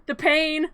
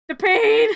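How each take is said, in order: First: Said in the usual way. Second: Higher and louder hammed-up howl of pain; mock cry of pain. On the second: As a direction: ham up the burning agony. Jack on fire, mock agony.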